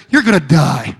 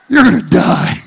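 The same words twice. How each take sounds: First: Said in the usual way. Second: Louder, hammed-up yell of the news; shouted punchline. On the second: Wife repeating the news to her husband, mock shout. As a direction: shout it the second time for the laugh.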